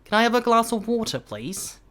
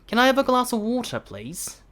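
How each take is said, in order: Both takes have the same delivery.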